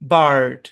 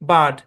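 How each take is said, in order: First: American accent, the r sound is pronounced. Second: British accent, the r sound is silent. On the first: "American ইংলিশে বার্ড" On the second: "British ইংলিশে বার্ড, কোনো আর হবে না"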